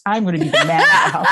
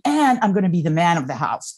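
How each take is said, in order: First: Laughing repeat. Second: Said in the usual way. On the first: Retold or imitated. Daughter's quote repeated laughing.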